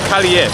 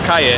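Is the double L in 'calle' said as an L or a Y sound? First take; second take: L sound; Y sound. First: The double L is said as an L sound. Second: The double L is said as a Y sound. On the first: This is how it is said locally in Filipino. "They pronounce it here calle" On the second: This is how it is said in Spanish. "in Spanish the double L turns into a Y"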